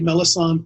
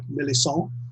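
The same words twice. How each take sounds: First: The name is said with English-style pronunciation. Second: The name is said with French-style pronunciation. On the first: "I say Melisande because that's what's easy for me to say" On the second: "In the French, it's more like Melisande"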